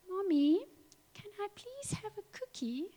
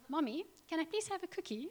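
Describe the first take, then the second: First: It is said in a whiny, moaning voice. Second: It is said in a plain, normal voice.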